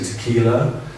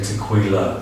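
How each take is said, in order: First: The 'qu' is said like a plain 'k'. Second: The 'qu' is said with a 'kw' sound. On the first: The speaker calls it right. "it's like just like a k" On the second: The speaker calls it wrong. "you don't say tequila"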